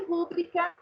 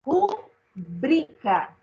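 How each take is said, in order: First: "rúbrica" stressed on the first syllable "rú-"; wrong pronunciation. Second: "Rubrica" drawn out very slowly, stress on "-bri-"; correct pronunciation. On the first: Teacher citing the common wrong form, first-syllable stress. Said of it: "por que que não poderia ser rúbrica?". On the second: Teacher revealing the right answer, very slowly, middle stress. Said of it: "qual será o certo?". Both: Shown as a demonstration.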